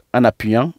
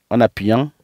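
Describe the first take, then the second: No difference in how they are said.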